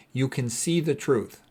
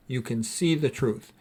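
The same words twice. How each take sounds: The two takes are said the same way.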